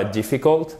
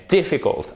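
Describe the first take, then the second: First: DIFFICULT with stress off the first syllable; wrong stress. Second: DIFFICULT stressed on DIF, falling; stress on first syllable. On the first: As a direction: misplace the stress in DIFFICULT toward the end. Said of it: "ce n'est pas difficult". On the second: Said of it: "Accent tonique sur la première syllabe". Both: Shown as a demonstration.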